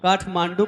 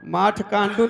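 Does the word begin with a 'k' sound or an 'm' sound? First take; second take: k; m. First: The word begins with a 'k' sound. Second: The word begins with an 'm' sound. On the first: The speaker calls it right. "काठमांडू कहा होगा" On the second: The speaker calls it wrong. "माठ कांडू नहीं"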